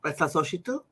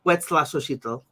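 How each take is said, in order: First: Huetzlaxochitl said softer, rising as if checking; Huetzlaxochitl, quieter with a questioning rise; unsure repeat. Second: Huetzlaxochitl said as WETS-lah-SO-chee-tl, firm falling finish; Huetzlaxochitl, confident with a falling end; Nahuatl name. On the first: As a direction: try Huetzlaxochitl again, unsure of it. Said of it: "I think". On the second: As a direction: sound out Huetzlaxochitl carefully with Nahuatl vowels. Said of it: "the original Nahuatl name for the plant". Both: Shown as a demonstration.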